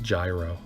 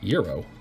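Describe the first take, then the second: First: The word begins with a 'j' sound. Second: The word begins with a 'y' sound. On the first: The speaker calls it wrong. "for my American friends" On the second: The speaker calls it right. "it's pronounced Euro"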